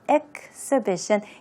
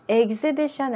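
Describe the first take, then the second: First: The x is sounded as ks. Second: The x is not sounded as ks. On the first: The speaker calls it right. "케이에스 발음" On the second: The speaker calls it wrong. "아니고"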